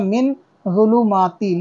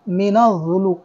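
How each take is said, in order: First: Min ends cleanly before a single z sound. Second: Min runs into a doubled z sound. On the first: The speaker calls it right. "ये लफ्ज़ यहाँ पे ख़त्म हो गया" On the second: The speaker calls it wrong. "मिनज़ पढ़ दिया, जबकि मिनज़ नहीं"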